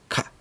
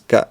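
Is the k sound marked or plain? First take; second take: marked; plain. First: The k is pronounced with stronger, sharper force. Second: The k is pronounced in the ordinary way. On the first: The speaker calls it right. "es K" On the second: The speaker calls it wrong. "no es K"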